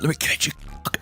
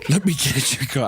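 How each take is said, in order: First: It is said in a whisper. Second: It is said in a normal voice.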